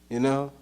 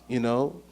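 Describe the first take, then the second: Both takes have the same delivery.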